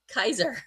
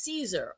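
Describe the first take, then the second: First: The name begins with a hard k sound. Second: The name begins with a soft s sound. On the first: "or as they say" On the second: "the package says Caesar"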